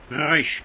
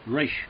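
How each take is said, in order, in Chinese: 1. r在喉咙深处震动。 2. r是把舌头向后卷起来发的。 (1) "小舌音它怎么读呢？它读resh" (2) "所以你就把它读成卷舌音"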